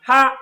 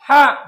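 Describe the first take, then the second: First: The vowel is said quickly and short. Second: The vowel is stretched out long. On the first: "হরকতের উচ্চারণ তাড়াতাড়ি করিতে হয়" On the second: "এক আলিফ টানিয়া পড়িতে হয়"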